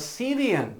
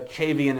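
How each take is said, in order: First: The word begins with an 's' sound. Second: The word begins with a 'ch' sound. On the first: The speaker calls it wrong. "I say Cevian all the time, but you know, I'm sure that's not how you say it" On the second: The speaker calls it right. "as they're probably called properly"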